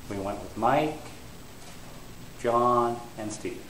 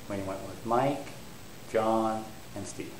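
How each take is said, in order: Both takes have the same delivery.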